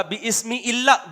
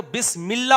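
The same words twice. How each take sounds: First: "بِاسْمِ" broken as bi-ISMI, slowly; higher, slow "bi-ismi" for "بِاسْمِ"; wrong unlinked reading. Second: "بسم اللہ" joined as bis-MIL-lah; linked reading. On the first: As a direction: say "بِاسْمِ اللہ" as "bi ismi-llah", first alif sounded. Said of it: "نہیں ہوگا". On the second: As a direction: run "بسم اللہ" together as "bismillah". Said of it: "کلام کے بیچ میں آئے گا تو". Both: Shown as a demonstration.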